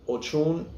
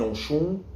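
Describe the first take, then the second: First: "Ochun" with a CH in the middle; ch variant. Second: "Oshun" with SH and a weightier "un"; sh variant. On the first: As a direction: say "Ochun" as o-CHUN. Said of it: "the difference between Ochun and Oshun". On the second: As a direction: say "Oshun" as o-SHOON. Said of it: "emphasis on the un". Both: Shown as a demonstration.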